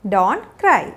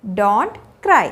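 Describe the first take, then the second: No difference in how they are said.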